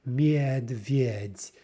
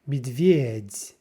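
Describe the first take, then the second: First: The first vowel is a full 'ye'. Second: The first vowel is reduced toward 'i'. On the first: The speaker calls it wrong. "We're not saying medvedь" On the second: The speaker calls it right. "That first yeah is kind of shortened and it's reduced a bit to more of an I"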